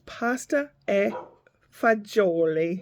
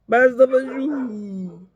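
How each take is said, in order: First: It is full, with every syllable clearly pronounced. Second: It is clipped, with dropped endings and voiced consonants. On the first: This is the proper Italian name. The speaker calls it right. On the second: This is how East Coast speakers say it. The speaker calls it wrong. "listen to people speaking quote unquote Italian"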